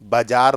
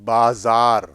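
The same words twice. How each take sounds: First: The middle consonant is a j sound. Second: The middle consonant is a z sound. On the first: The speaker calls it wrong. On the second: The speaker calls it right.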